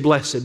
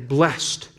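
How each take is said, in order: First: The word is said in a formal, churchy way. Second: The word is said in an everyday, plain way.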